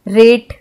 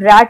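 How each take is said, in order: First: The vowel sounds like the e in bet. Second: The vowel sounds like the a in bat. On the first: The speaker calls it wrong. "ऐसे नहीं बोलते" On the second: The speaker calls it right. "हम रैट बोलते हैं"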